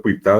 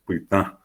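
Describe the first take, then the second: First: "pitá" with plain oral final a, meaning heel. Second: "pitá" with nasalised final á, meaning red; nasal "pitá" for colorado. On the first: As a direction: say "pitá" with a clean mouth a. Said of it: "pitá de forma oral". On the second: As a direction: push the last á of "pitá" through the nose. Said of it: "le pongo la tilde nasal". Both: Shown as a demonstration.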